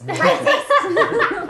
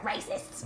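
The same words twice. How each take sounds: First: Loud, high-pitched goblin complaint; grumbled accusation. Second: Soft, whispery grumble; grumbling under breath. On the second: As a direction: mutter it resentfully under your breath. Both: Acted. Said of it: "grumbling under my breath".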